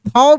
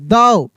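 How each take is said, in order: First: The word begins with a breathy 'th' sound. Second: The word begins with a voiced 'd' sound. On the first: The speaker calls it wrong. "थाव भी नहीं" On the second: The speaker calls it right.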